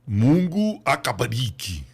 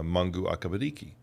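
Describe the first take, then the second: First: It is said with a Swahili-style pronunciation. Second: It is said with an American English accent. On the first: The speaker calls it right. "you must say it this way" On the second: The speaker calls it wrong. "With the way I say it"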